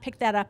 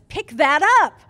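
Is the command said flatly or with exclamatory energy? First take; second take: flat; exclamatory. First: It is said flatly, like a plain statement. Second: It is said perkily, with exclamatory energy. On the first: A plain command with a period. "It's not" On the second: A command ending with an exclamation point. "it's all very perky"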